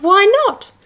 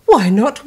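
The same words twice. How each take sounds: First: Put-on Gruffalo's child begging again, higher; high wheedling why not; high pleading repeat. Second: Said in the usual way. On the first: Child pleading with her dad.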